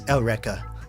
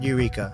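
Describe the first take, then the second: First: Eureka is said with a Japanese-style pronunciation. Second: Eureka is said with an English pronunciation. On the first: The speaker calls it right. "it's Eureka" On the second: The speaker calls it wrong. "it's not Eureka"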